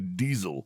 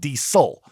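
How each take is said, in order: First: The middle consonant is a buzzing Z sound. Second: The middle consonant is a hissing S sound. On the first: This is how some other people say it. "some people say Diesel with a Z, which sounds more sophisticated" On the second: This is how people say it where the speaker grew up. "we always said Diesel with an S"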